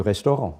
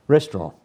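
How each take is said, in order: First: Said in the usual way. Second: Restaurant with a French nasal ending, restoh-RAHN. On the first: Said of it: "Okay, drop a few". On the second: Shown as a demonstration. French guest dropping a word for the host: Restaurant, French-style. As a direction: say Restaurant the French way, stress on the last syllable. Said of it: "Drop a few in an".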